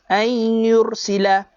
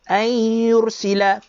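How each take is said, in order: Both takes have the same delivery.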